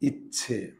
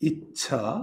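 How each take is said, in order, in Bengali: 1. শেষ স্বরধ্বনিটি 'e' ধ্বনি। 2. শেষ স্বরধ্বনিটি খোলা 'a' ধ্বনি। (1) "প্রথমে রস্বই পরে আছে এ" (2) "প্রথমে আছে ই রস্বই আর পরে আছে আ"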